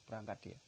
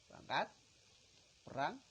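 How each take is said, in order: First: Said in the usual way. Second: Louder, higher call to march; a rallying cry to war; rousing call. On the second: Retold or imitated. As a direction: send him off to battle with a shout. Calling the soldier off to war.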